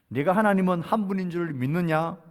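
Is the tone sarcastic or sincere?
sincere. It is read in a plain, sincere tone. The question is asked at face value. The speaker calls it wrong. "이렇게 읽으면 안 됩니다"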